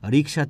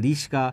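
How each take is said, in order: First: The k sound comes before the s sound. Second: The s sound comes before the k sound. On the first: "রিক্সা থেকে রিস্কা" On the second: "রিক্সা থেকে রিস্কা"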